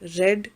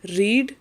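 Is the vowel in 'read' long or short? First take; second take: short; long. First: The vowel is a short 'e' sound. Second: The vowel is a long 'ee' sound. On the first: The action already happened. "read is past" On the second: The action happens now or habitually. "Read is present"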